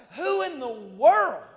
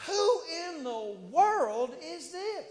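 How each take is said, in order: First: Loud, slow, belted who in the world; outraged David. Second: Higher, slow, drawn-out disbelief; incredulous David. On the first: David ignoring brothers, shouting in outrage. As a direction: shout it across the valley. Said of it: "And David's like". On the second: David wondering at the giant, slow and incredulous. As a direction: stretch who in the world in amazement. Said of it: "David is sitting there going". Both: Acted.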